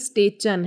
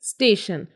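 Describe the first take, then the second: First: The middle consonant is a ch sound. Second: The middle consonant is an sh sound. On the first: The speaker calls it wrong. "ना ही स्टेचन है" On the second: The speaker calls it right. "It's स्टेशन"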